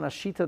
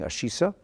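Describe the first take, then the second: First: The middle consonant is a t sound. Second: The middle consonant is an s sound. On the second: "I would read it if I was learning Ashisa, but, but it's a suf, not a tuf"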